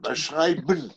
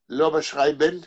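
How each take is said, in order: First: The final n follows with no vowel before it. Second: A clear vowel is heard before the final n. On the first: The speaker calls it right. "אין עין" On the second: The speaker calls it wrong. "לא בשרייבן, אין עין"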